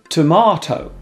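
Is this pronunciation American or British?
British. It is said in British English.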